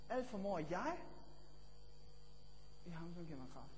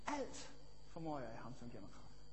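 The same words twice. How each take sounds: First: The word jeg carries the stress. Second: The word alt carries the stress. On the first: "Eller det næste, jeg" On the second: "For eksempel, alt"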